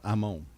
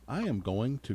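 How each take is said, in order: First: The words are squeezed into two short syllables. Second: Every word is said in full. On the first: This is how real Southerners say it. "Us real Southerners" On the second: This is the standard way to say it. "Instead of saying"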